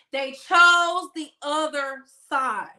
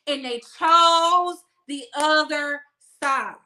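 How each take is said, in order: First: "chose" stretched and falling, slow; slow emphatic repeat. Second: "chose" drawn out, slow and weighty; slow down and lean on "chose"; stress on chose. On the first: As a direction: hammer "They chose the other side" slowly. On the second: Emphatic slow delivery. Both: Real, not acted.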